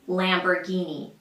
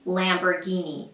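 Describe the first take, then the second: First: It is said with the American pronunciation. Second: It is said with the American pronunciation.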